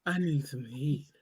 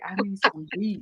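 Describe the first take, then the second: First: Low, soft, slow sultry purr; sexy auntie voice. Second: Low, soft sultry auntie; breathy come-on line, lightly; sexy auntie voice. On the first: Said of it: "this what she be doing". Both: Retold or imitated.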